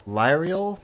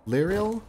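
First: "Lyrial" with first syllable like "lie", questioning rise. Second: "Lyrial" with short i, higher questioning rise; first-syllable "lir". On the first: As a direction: try "Lyrial" as LIE-ree-ul, unsure. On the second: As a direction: try "Lyrial" as LIR-ee-ul, unsure. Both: Real, not acted.

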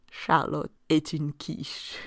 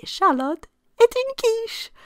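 First: Calm Charlotte est une quiche; French sentence. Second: High, loud teasing Charlotte est une quiche; mock scolding quip. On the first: Shown as a demonstration. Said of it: "sentence ... in French". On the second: What you'd say to silly Charlotte, mock teasing. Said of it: "you might say".

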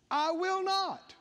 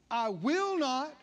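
First: I will not pitched up high and slow; climbing preacher's emphasis on "I will not"; higher, emphatic. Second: Said in the usual way. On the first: Shown as a demonstration. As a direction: lift it up and lean on it like a promise. Preacher repeats promise, building.

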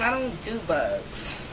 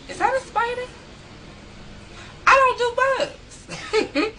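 First: Said in the usual way. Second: Much higher, slow, giggling "I don't do bugs"; laughing squeal. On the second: Real, not acted. Vlogger squirming at a bug question, high laughing squeal.

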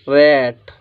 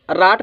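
First: रैट with a stretched front "ae" vowel; correct reading of रैट. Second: राट with a long open "aa"; misreading of राट. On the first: Teacher gives the right reading, रैट drawn out. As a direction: say रैट as English "rat", drawn out. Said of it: "इसको पढ़ेंगे हम रैट". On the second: Teacher shows what not to read, राट with "aa". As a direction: say राट as "raat". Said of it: "इसको राट नहीं पढ़ेंगे". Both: Shown as a demonstration.

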